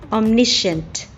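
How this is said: It is said with an American accent. "American English"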